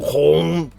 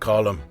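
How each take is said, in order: First: The name sounds like the word colon. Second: The name sounds like the word column. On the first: The speaker calls it wrong. "they're saying colon" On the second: The speaker calls it right. "it's pronounced column"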